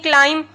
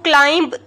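First: The final b is silent. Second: The final b is pronounced. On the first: The speaker calls it right. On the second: The speaker calls it wrong.

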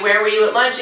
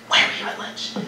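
First: It is asked in a plain, neutral way. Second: It is asked in an accusing way.

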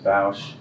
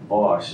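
First: The vowel rhymes with the word house. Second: The vowel does not rhyme with house. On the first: "the pronunciation of Bosch rhymes with house" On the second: "it is also Bosch"

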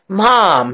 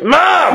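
First: It is said in a nice, gentle tone. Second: It is said in a rude, harsh tone.

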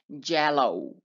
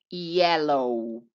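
First: The first sound is a harder consonant. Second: The first sound is a soft ee-like glide. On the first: The speaker calls it wrong. "Porfa, evita pronunciar" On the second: The speaker calls it right. "aquí la Y suena como si fuera una I"

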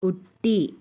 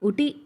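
First: The t sound is doubled and held longer. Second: The t sound is single and short. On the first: The speaker calls it right. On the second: The speaker calls it wrong.

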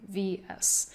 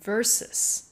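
First: It is read out as two separate letters. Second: It is read out as one whole word. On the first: The speaker calls it wrong. "就直接将它这样念出来VS" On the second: The speaker calls it right. "但事实上它所代表的字是versus"

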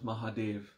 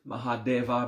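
First: The final a vowel is muted and dropped. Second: The word ends with a pronounced final a vowel. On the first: "when a word finishes with A, you mute it a bit" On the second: "Mahadeva becomes Mahadev"

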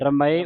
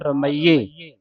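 First: The ending is said without an 'ee' vowel. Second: The ending is said with an 'ee' vowel. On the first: The speaker calls it wrong. "ਰਮਏ ਉਚਾਰਨ ਨਹੀਂ ਕਰਨਾ" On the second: The speaker calls it right. "ਇਸ ਦਾ ਉਚਾਰਨ ਹੈ"

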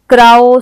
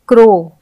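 First: The vowel is a gliding 'ao' sound. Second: The vowel is a plain 'o' sound. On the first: The speaker calls it wrong. "ये नहीं पढ़ेंगे" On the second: The speaker calls it right. "हम इसे ओ के उच्चारण से पढ़ेंगे"

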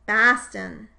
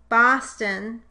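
First: The first vowel is pronounced further forward. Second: The first vowel is pronounced further back. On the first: "the way that some people from the Northeast say the ah sound" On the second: "or Boston versus Baston"

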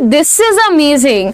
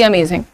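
First: It sounds warm and genuinely delighted. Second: It sounds flat and uninterested.

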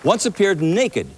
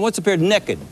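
First: It is said in a standard accent. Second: It is said in a West Virginia accent.

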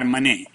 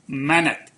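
First: The word is said with a French pronunciation. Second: The word is said with an English pronunciation. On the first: The speaker calls it wrong. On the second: The speaker calls it right.

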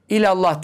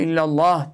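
First: The L sound is short and single. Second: The L sound is held long and doubled. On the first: The speaker calls it wrong. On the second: The speaker calls it right.

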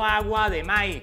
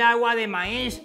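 First: It is said in a coastal vallenato-style accent. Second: It is said in a posh Bogotá-style accent. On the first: This is how he says it now. "sino; quiere aprender a hablar vallenato" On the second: This is how he used to say it. "Ya no dice"

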